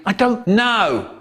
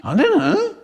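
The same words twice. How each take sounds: First: High, mock-furious retort. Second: Very high, small, feeble voice; weedy little voice. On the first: Michael answering May about her daughter, hammed-up fury. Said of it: "In a furious voice I sang". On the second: Acted. Michael admitting it to May, weedy little voice. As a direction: squeak it out weedily, rising at the end. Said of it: "in a weedy little voice I sang".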